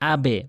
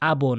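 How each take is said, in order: First: The b ends with an e-like echo. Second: The b ends with an o-like echo. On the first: The speaker calls it right. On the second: The speaker calls it wrong. "আবো না"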